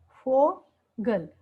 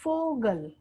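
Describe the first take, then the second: First: फोगल stretched out very slowly, syllable by syllable; फोगल drawn out for a class; slow demo. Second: Said in the usual way. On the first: Shown as a demonstration. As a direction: spell out फोगल slowly so learners hear each sound. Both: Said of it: "इसका example जो है".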